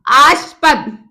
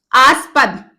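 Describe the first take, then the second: No difference in how they are said.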